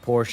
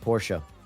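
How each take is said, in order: First: The final E is silent. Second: The final E is pronounced. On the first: The speaker calls it wrong. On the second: The speaker calls it right.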